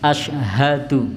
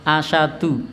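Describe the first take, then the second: First: The h sound is clearly pronounced. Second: The h sound is left out. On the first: The speaker calls it right. "harusnya haknya diucapkan asyhadu" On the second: The speaker calls it wrong. "biasanya diucap asyadu, nah, jadi haknya hilang"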